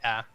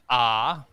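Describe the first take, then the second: First: The vowel is said the Victorian way. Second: The vowel is said the South Australian way. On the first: "they say ah" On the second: "we say ah"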